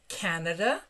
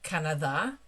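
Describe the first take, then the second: First: It is pronounced with English sounds. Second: It is pronounced with Spanish sounds.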